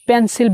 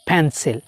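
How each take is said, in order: First: The p has no puff of air. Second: The p has a strong puff of air. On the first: The speaker calls it wrong. "পেন্সিল বলি" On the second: The speaker calls it right. "আজকে থেকে পি কে ফ বলবো"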